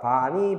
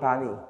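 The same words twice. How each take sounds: First: The second syllable has the diphthong 'ui'. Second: The second syllable has the plain vowel 'i'. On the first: "의나 이로 발음할 수 있으니까" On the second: "의나 이로 발음할 수 있으니까"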